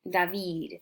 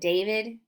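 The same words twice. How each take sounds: First: It is said with a French accent. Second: It is said with an English accent.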